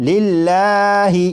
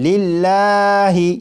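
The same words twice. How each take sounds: Both takes have the same delivery.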